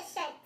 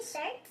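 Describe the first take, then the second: First: Shirt without the R, like "shet"; own-accent shirt. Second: Shirt with an American R, "shurrt"; corrected shirt. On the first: Shown as a demonstration. Giving an example of her own way, shirt pronounced without R. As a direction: say shirt as "shuht". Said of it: "I'll say something a certain way". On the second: Retold or imitated. College friends correcting her, shirt said with a clear R. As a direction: sound the R strongly in shirt. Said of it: "Oh, you mean shirt?".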